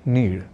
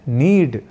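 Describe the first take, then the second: First: The consonant is a flapped retroflex sound. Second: The consonant is a hard retroflex d stop. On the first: The speaker calls it wrong. "न कि नीड" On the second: The speaker calls it right. "सर्वथा शुद्ध रूप में करना हो तो हमें कहना और लिखना है नीड"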